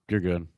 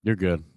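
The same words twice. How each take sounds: The two takes are said the same way.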